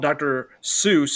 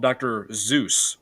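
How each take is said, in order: First: The name begins with an S sound. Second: The name begins with a Z sound. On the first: The speaker calls it wrong. "he's not called Doctor Seuss" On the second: The speaker calls it right. "with a Z"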